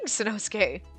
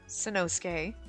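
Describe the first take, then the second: First: The name is said angrily. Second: The name is said with less anger.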